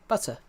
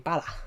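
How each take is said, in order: First: It is said in the speaker's own accent. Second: It is said in an Australian accent.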